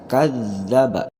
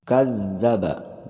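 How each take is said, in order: The two takes are said the same way.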